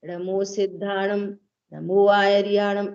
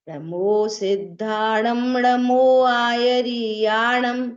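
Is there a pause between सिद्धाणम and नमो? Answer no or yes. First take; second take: yes; no. First: The phrase has a break after सिद्धाणम. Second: The phrase is said smoothly without a break. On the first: The speaker calls it wrong. "ऐसे नहीं बोलना है" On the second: The speaker calls it right. "Break नहीं होना सिद्धाणम और आयरियाणम में"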